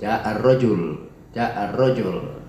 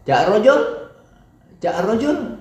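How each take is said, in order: First: "ja'ar rojul" slowly, dropping at the end; slow "ja'ar rojul" with a closing downward fall; falling statement intonation. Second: "ja'a rojul" high, climbing at the end; "ja'a rojul" as an unfinished question, going up; rising question intonation. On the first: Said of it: "intonasinya turun". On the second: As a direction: ask "ja'a rojul" with pitch lifted on rojul. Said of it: "diakhiri dengan intonasi soida, naik". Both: Shown as a demonstration.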